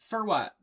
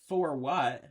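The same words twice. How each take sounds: First: The word 'for' is reduced to 'fur'. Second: The word 'for' has its full vowel. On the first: "I say fur all the time" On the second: "I don't say"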